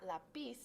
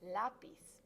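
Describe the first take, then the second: First: "lápiz" said as la-PIZ, weight on the ending; stress on second syllable. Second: "lápiz" said as LÁ-piz, first syllable drawn out; stress on first syllable. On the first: Teacher showing students the wrong version, stressing PIZ in "lápiz". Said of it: "It's not lápiz". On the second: Teacher correcting the word for students, stressing LÁ in "lápiz". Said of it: "it's lápiz". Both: Shown as a demonstration.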